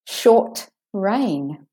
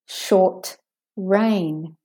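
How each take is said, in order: First: There is a slight pause after the t. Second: There is a slight pause after the t.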